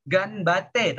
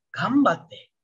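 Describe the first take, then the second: First: "Ganbate" with a distinct n before b; as written, with n. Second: "Gambate" with lips closed on m before b; n read as m. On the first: Teacher shows the written form, n kept in "Ganbate". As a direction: keep the tongue-tip n in "Ganbate". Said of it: "tulisannya memang Ganbate". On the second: Teacher shows how it is read, m in "Gambate". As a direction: turn the n to m in "Gambate". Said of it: "kalian bacanya jadi Gambate". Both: Shown as a demonstration.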